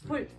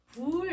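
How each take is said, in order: First: The word is cut off quickly. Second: The word is drawn out longer. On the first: The speaker calls it right. "이렇게 짧게 발음해" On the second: The speaker calls it wrong. "이렇게 발음하지 말고"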